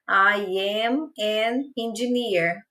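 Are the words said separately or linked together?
separately. The words are said separately, with small breaks.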